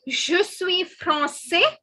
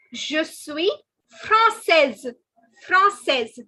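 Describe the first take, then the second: First: Slow français ending in an open 'say'; français with no consonant at the end; masculine, silent S. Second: Française finished on a clear 'sez'; française as 'frahn-SEZ'; feminine, sounded ending. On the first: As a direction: teach français as 'frahn-say', drawn out. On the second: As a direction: hit française loudly with its final z. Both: Shown as a demonstration. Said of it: "Did you notice the difference between these two?".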